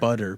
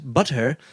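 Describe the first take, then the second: First: The middle T sounds like a soft D. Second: The middle T is a crisp, hard T. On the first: This is how everyone actually says it. The speaker calls it right. "We say it like D's" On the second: Nobody really talks this way. The speaker calls it wrong. "no one says butter"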